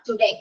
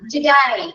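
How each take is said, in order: First: The last syllable rhymes with 'day'. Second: The last syllable rhymes with 'die'. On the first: The speaker calls it wrong. "Not ടുഡേ" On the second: The speaker calls it right. "Correct pronunciation ആണ്. ടുഡായ്"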